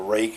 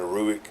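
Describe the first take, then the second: First: The name sounds like the word rake. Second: The name sounds like roo-ick. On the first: The speaker calls it right. "I know it's called a rake" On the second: The speaker calls it wrong. "I keep calling it a Ruick"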